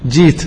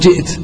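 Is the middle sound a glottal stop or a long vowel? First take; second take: long vowel; glottal stop. First: The hamza is replaced by a long i vowel. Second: A glottal stop is heard in the middle. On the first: This is the everyday colloquial form. "وأيضا جيت" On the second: This is the original standard form. "وأصله جئت"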